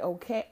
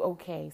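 First: "Okay." with a rising tune, mocked; mocking the curt "Okay."; disdainful okay. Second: Said in the usual way. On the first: Shown as a demonstration. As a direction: sneer the "Okay." upward. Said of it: "I hate people that write". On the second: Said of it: "I do".

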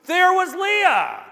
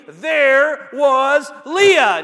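First: High, slow exclamation on There; There was Leah, pitched up high and stretched; exclaimed. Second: Slow, loud, drawn-out exclamation; there was Leah, stretched and punched loud; exclaimed. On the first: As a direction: sound the exclamation point. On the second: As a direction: land it like a shocked discovery. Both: Shown as a demonstration. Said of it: "Notice the exclama-, exclamation point".

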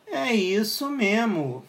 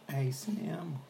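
First: Slow, drawn-out mic test line. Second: Soft whisper for a mic test. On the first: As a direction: stretch every word out slowly. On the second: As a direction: whisper it to check the sound. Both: Shown as a demonstration. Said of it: "Será que ficou uma merda o som?".

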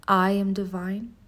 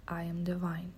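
First: Slow, rising affirmation. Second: Whispered repeat of the affirmation; whispered echo. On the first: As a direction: declare it slowly. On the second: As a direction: whisper it to yourself. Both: Shown as a demonstration. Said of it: "Say it with me".

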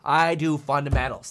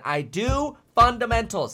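First: Said in the usual way. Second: "I do fundamentals" higher and slower, leaning on "do"; slow down and hammer the word "do"; emphatic restatement. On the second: Real, not acted. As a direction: repeat it as a firm creed. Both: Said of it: "I'm a fundamentalist at heart".

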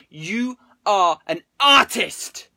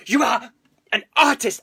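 First: Slow, loud "You are an artist!" with every word drawn out; own emphasis. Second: Punchy "You are" then "an artist!" loud and high; his actual way. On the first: Pretend. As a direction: stretch "artist" like a grand compliment. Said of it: "I'm gonna put my own emphasis". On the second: Retold or imitated. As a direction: hit "You" hard, pause, then "an artist!". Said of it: "he doesn't say it like that".

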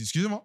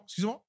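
First: Said in the usual way. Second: High, rising call without extra volume; retold calling-out. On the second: Clerk calling to a departing customer, high mock call. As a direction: re-enact calling after someone. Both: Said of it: "mais j'ai crié".

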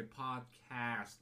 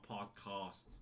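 First: Said in the usual way. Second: "podcast" with a broad British "ah" in the second syllable; snobby pronunciation. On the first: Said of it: "still always gonna say podcast". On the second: Shown as a demonstration. Host mocking how rich snobs say it, snobby "podcast". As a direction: say "podcast" the posh, snobby British way, cast as "cahst". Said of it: "that sounds so snobby to me".

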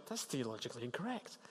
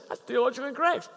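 First: Much softer, said only in your head; quiet inner thought. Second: Much higher, a preachy correcting tone; mock know-it-all correction. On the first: Retold or imitated. Thinking it about a suffering friend, very soft inner voice. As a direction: keep it to yourself, barely voiced. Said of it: "and you think". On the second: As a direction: play the tactless corrector, pitched up. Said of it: "Don't say".

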